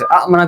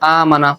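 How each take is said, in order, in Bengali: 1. শুরুতে একটি হ্রস্ব স্বর আছে এবং একটি glottal catch আছে। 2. শুরুর স্বরটি দীর্ঘ করে টানা হয়।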